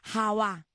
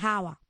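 First: The stress is on the last syllable. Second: The stress is on the first syllable. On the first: A beautiful light-skinned woman with curly hair. The speaker calls it wrong. "Digo que jabá con acento" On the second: A bag for carrying groceries or other things. The speaker calls it right. "perdón, es jaba"

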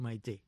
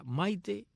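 First: The stress is on the third-to-last syllable. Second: The stress is on the second-to-last syllable. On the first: "y esdrújulas" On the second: "serían las Maites llanas"

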